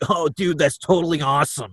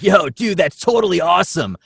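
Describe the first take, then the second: First: A stuffy, nasal bro voice with a cold. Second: A clear bro voice, not nasal.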